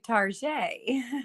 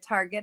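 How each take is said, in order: First: The word ends in a French-like 'zhay' sound. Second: The word ends in a plain hard 'get' sound. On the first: The speaker wants to seem upper-class. "You want to sound high, you know, high society" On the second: An ordinary trip to a common store. "I'm not going to Target"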